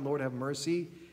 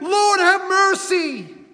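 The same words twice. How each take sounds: First: It is said quietly and politely. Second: It is shouted loudly and urgently.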